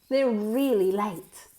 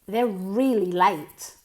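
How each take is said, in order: No difference in how they are said.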